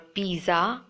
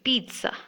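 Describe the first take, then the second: First: The middle has no T sound. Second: The middle has a T sound. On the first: The speaker calls it wrong. "It's not pizza" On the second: The speaker calls it right. "It should be pizza with a T sound in the middle"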